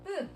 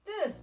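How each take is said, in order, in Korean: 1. 첫 자음은 하나의 된소리입니다. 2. 첫 자음은 하나의 된소리입니다.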